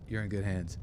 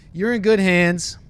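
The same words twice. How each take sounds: First: Soft, low pilot murmur; quiet reassurance. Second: High, loud, drawn-out assurance; loud mock reassurance. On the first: Pretend. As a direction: settle them down, low and hushed. Repeats the reassurance softly. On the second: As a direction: proclaim it slowly like an overconfident pilot. Mock pilot reassuring passengers.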